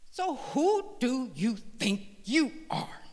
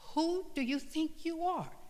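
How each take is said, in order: First: It sounds indignant and accusing. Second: It sounds curious and genuinely inquiring. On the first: The listener is being put down. The speaker calls it wrong. "rather than a tone of indignation" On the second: The listener is invited to reflect on themselves. The speaker calls it right. "With a tone of inquiry, not a tone that is downing you"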